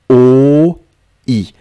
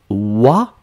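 First: The letters split into two syllables, o-i. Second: The letters blend into one syllable, wa. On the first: The speaker calls it right. "le tréma va diviser" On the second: The speaker calls it wrong. "Vous ne prononcez pas wa"

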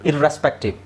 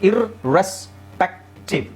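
First: The word is said smoothly without a break. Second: The word is split with a break after ir.

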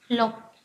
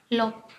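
The two takes are said the same way.

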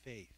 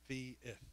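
First: The word is said as one syllable. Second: The word is stretched into two syllables. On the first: "you have only one syllable" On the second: "We say faith, fi-ith ... We have two syllables"

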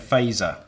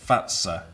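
First: The name is said in an anglicized way. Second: The name is said in the Finnish way. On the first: "we've been saying Faser" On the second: "Finnish pronunciation is Fatsa"

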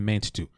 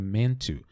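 First: Two separate T sounds are pronounced. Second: A single T sound joins the words. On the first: The speaker calls it wrong. "A gente não vai fazer meant to" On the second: The speaker calls it right. "A gente faz um T só"

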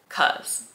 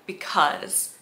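First: The word is shortened to one syllable. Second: The word is said in full, two syllables. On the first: "she says cuz" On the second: "she doesn't say because"

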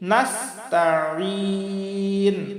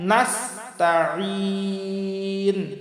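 Both takes have the same delivery.

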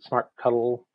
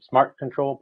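First: The ending is said as the word cuddle. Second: The ending is said as the word control.

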